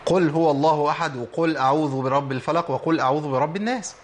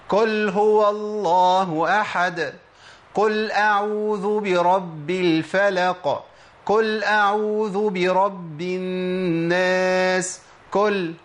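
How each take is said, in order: First: Heavy "qul" in قل, not a light k; true qaf. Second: Each قل chanted as "kul", with a light front k; slow, raised recitation, mispronouncing قل as "kul"; drawn-out verses with k for q in every قل; qaf turned kaf. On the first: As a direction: recite every وقل with a heavy qaf, moving along. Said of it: "في ناس بتنطقها بشكل صحيح". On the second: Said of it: "قل دي منين يا شيخ؟". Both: Shown as a demonstration.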